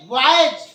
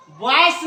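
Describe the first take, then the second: First: बॉयज ending in a buzzing z, drawn out slowly; बॉयज as boyz, the correct z ending. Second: बॉयज ending in a hissed s sound, the wrong way; बॉयज as boys-s, the mistaken s ending. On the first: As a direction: say बॉयज with a clear z at the end. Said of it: "नहीं, बॉयज". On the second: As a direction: say बॉयज with a plain s at the end, to show the mistake. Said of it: "बॉयज नहीं". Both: Shown as a demonstration.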